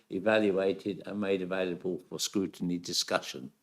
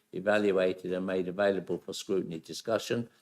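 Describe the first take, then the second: Both takes have the same delivery.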